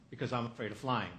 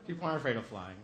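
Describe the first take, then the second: First: Flying leaned on, falling at the end; stress on flying. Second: Aren't leaned on, the rest falling away; stress on aren't. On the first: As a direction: make flying the word that matters. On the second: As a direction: correct them by hitting aren't. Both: Shown as a demonstration.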